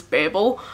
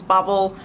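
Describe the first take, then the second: First: Babel said BAY-bul, long a as in day; British pronunciation. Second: Babel said BAB-ul, short a as in cat; author's pronunciation. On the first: Vlogger showing the British way, Babel as BAY-bul. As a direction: say Babel to rhyme with table. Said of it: "The British pronunciation is Babel". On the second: Vlogger showing how the author says it, Babel as BAB-ul. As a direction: say Babel to rhyme with rabble. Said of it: "R F Kuang calls this Babel". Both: Shown as a demonstration.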